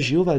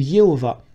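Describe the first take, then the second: First: The name begins with a soft 'j' sound. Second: The name begins with a 'y' sound. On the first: The speaker calls it wrong. "ne dites pas Jéhovah" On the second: The speaker calls it right. "dites Yehowa ou Yehovah. Parce qu'en hébreu, on ne dit pas je"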